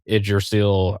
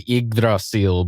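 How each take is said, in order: First: The name begins with an 'id' sound. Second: The name begins with an 'ig' sound. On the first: "I had that down as" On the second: "I think the technical pronunciation is Yggdrasil"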